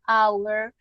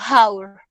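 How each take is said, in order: First: The word starts directly with a vowel sound. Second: The word starts with a rough h-like sound. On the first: The speaker calls it right. "no la pronuncio con J" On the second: The speaker calls it wrong. "no digo hour"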